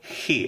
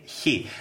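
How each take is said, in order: First: The word starts with a plain, soft h sound. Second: The word starts with a hissing, y-like h sound. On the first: "You say he" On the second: "I say he. ... you put a little bit of yot inside"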